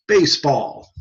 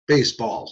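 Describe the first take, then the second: First: Lightly acted tester presenting a test word; tester prompting. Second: Lightly acted, subdued echo of the word; patient repeating. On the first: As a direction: offer the word for someone to repeat. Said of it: "and they'll say". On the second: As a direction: say it back like a test subject. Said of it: "and the guy says".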